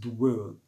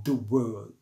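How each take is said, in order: First: The vowel of 'the' is dropped. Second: The same.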